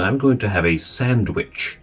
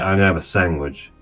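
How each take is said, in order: First: Every word is pronounced fully and carefully. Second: The words are reduced and run together loosely. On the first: "I wouldn't say" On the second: "as if it was spelled S A N G W I J"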